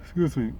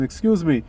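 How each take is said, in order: First: Yawning. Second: Said in the usual way. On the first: Real, not acted. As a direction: excuse me mid-yawn, quiet. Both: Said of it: "I'm yawning".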